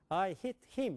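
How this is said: It is voiced from the throat, Korean style.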